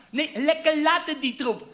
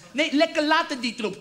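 First: Put-on slowed down, old person's voice; slow old grandparent voice. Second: Said in the usual way. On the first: Repeating it for grandpa, slow elderly voice. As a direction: drag it out like a frail old man. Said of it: "Opa verstaat het verkeerd". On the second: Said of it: "Ik zei".

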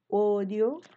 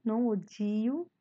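First: "odio" said the Spanish way, o-dio, clean d; "odio" with a plain d and a clear final o. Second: "odio" said the Portuguese way, like od-jiu; Portuguese-style odio. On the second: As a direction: slip into the Brazilian "odio", od-jiu. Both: Shown as a demonstration.

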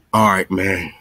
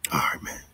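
First: Said in the usual way. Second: Breathy whispered sign-off, much softer; soft unvoiced farewell to the viewers. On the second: Real, not acted. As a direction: drop to a whisper for the goodbye. Signing off, then repeats whispered.

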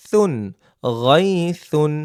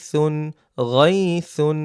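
Both takes have the same delivery.

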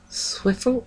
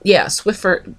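First: Swiffle said with an L ending, unsure; mispronounced brand name. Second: Swiffer said with a clear R ending; corrected brand name. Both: Real, not acted.

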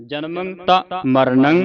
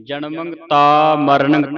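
First: ਤਾ as a clean dental ta, with ਜਨਮੰ and ਮਰਨੰ ending in a plain nasal ng; teacher's corrected take, ਤਾ plain and unvowelled; correct pronunciation. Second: ਜਨਮੰ ਤਾ ਮਰਨੰ with a g sound slipped in after each nasal, like ਜਨਮੰਗ ਤਾ ਮਰਨੰਗ; wrong pronunciation. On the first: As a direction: model the right way, slowly, ਜਨਮੰ ਤਾ ਮਰਨੰ with no added g. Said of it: "ਤੱਤਾ ਮੁਕਤਾ ਹੀ ਉਚਾਰਨ ਕਰਨਾ ਹੈ". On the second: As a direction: demonstrate the wrong way, ਜਨਮੰ and ਮਰਨੰ ending in ng-g, slow. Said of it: "ਤਾ ਇਸ ਤਰ੍ਹਾਂ ਨਹੀਂ ਉਚਾਰਨ ਕਰਨਾ". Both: Shown as a demonstration.

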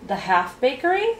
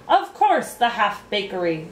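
First: "The half bakery?" higher, rising at the end; questioning. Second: Snapped retort. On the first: Boy interrupting the king, questioning "The half bakery?" with a rise. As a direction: query "The half bakery?" with a climbing tune. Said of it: "questioned Milo". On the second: King to the interrupting boy, snapping back. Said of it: "snapped the king". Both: A narrator's reading.

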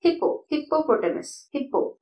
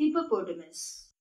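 First: "ഹിപ്പോ" with a doubled p; higher, hold the p in "ഹിപ്പോ"; common mispronunciation. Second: Soft "ഹിപ്പോപൊട്ടമസ്" with a single light p; don't double the p in "ഹിപ്പോപൊട്ടമസ്"; correct pronunciation. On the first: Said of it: "അവിടെ double പി ഇല്ല". ("ഹിപ്പോ", ഇരട്ട പി ശബ്ദത്തോടെ) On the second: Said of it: "ഇതിന്റെ correct pronunciation എന്താണ്". ("ഹിപ്പോപൊട്ടമസ്", ഒറ്റ പി മാത്രം) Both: Shown as a demonstration.

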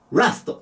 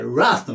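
First: "ラスト" with a quick ラ; short vowel. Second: "ラスト" with ラ held slightly long; slightly stretched vowel. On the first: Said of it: "ラストじゃなくてラストなの". (「ラスト」のラを短く言う誤例) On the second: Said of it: "ちょっと伸ばすの". (「ラスト」のラを少し伸ばす) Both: Shown as a demonstration.

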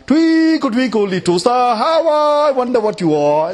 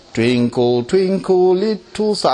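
First: Rhythm-spoiled singing. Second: Sung nursery rhyme. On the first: Preacher showing a song spoiled by another tune, overblown singing. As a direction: sing it out of its tune, high and stretched. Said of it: "You just spoil the whole rhythm". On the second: Preacher showing how a song is sung, simple singsong. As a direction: sing the rhyme simply in its tune. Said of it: "how are you gonna sing something like". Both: Shown as a demonstration.

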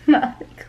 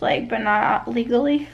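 First: Laughing. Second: Said in the usual way. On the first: Real, not acted. Repeats the phrase, laughing.

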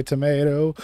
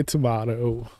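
First: "tomato" with a long AY, to-MAY-toh; American tomato. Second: "tomato" with a broad AH, to-MAH-toh; British-style tomato. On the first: Host joking over pronunciation, says "tomato" as to-MAY-toh. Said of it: "I say tomato". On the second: Host joking over pronunciation, says "tomato" as to-MAH-toh. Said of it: "You say tomato". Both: Shown as a demonstration.

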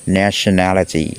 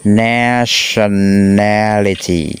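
First: Said in the usual way. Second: "nationality" stretched very slowly, every syllable held. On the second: Shown as a demonstration. Teacher counts out a hard word on five fingers, very slow syllables. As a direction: draw out "nationality" one syllable at a time. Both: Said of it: "cái từ này hay khó đọc".

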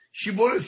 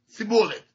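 First: شیبولت با شین درست; «شیبولت» را با ش کامل و کمی بالارونده بگو; saying shibolet. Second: «سیبولت» را با s تیز به جای ش بگو; saying sibolet. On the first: (شیبولت با شین درست) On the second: (سیبولت با سین به جای شین) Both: Shown as a demonstration.

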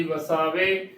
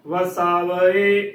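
First: ਵਸਾਵੇ as "va-saa-ve"; wrong three-syllable reading. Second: ਵਸਾਵੇ slowly as "va-saa-va-e"; correct four-syllable reading. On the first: Teacher contrasting the wrong reading, ਵਸਾਵੇ as "va-saa-ve". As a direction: join e directly to the last v of ਵਸਾਵੇ. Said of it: "ਨਾ ਕਿ". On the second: Teacher giving the correct reading, ਵਸਾਵੇ as slow "va-saa-va-e". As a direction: stretch a separate final e on ਵਸਾਵੇ. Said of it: "ਉਚਾਰਨ ਕਰਨਾ ਹੈ". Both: Shown as a demonstration.

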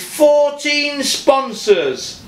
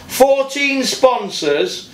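First: Fourteen pulled out slowly, falling at the end; slow emphasis. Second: Fourteen drawn out, rising at the end as if still counting; slow rising repeat. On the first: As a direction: lean hard on Fourteen, falling. Stressing the sponsor count, ranting. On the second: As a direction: say Fourteen sponsors slowly, lifting the end. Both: Real, not acted.

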